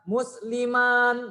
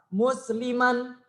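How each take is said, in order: First: The final vowel is drawn out long. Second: The final vowel is kept short. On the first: The speaker calls it wrong. "pembacaannya bukan musliman, bukan gitu" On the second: The speaker calls it right. "tapi biasa musliman"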